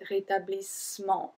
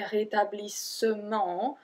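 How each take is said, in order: First: The vowel after the double S is dropped. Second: The vowel after the double S is pronounced. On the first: The speaker calls it right. "We just skip the E and we say rétablissement" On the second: The speaker calls it wrong. "we don't say rétablissement"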